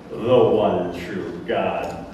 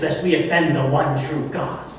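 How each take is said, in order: First: Very slow, low, scornful repeat; mocking echo. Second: Said in the usual way. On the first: Roman governor repeating the priest's phrase, mocking and slow. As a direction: drag it out low in disdain.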